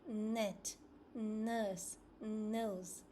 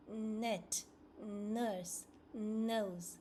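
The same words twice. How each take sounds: The two takes are said the same way.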